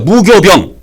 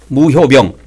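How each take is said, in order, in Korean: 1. 두 번째 음절은 '교'로 발음해요. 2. 두 번째 음절은 '효'로 발음해요. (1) "무교병으로 하지 말고" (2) "무효병으로 발음한 게 더 좋아요"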